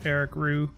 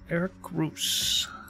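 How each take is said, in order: First: The surname ends without any S sound. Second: The surname ends with an audible S sound. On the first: The speaker calls it right. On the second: The speaker calls it wrong.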